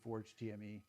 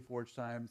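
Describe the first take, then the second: First: The last part is spelled out letter by letter. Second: It is read as the words forge time. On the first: "Some people say Forge T M E" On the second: "a lot of people say Forge Time"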